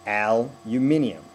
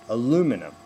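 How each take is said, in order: First: Slow "aluminium", hit on "AL" and "MIN"; stress one and three. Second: "aluminum" hit on "LU", falling after; stress on two. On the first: Coach mirroring Australian actors, "aluminium" stressed on syllables one and three. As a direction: punch first and third syllables of "aluminium" slowly. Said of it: "You guys hit one and three". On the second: Coach showing how Americans say it, "aluminum" stressed on second syllable. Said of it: "We hit two". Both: Shown as a demonstration.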